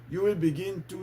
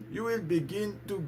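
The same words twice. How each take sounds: The two takes are said the same way.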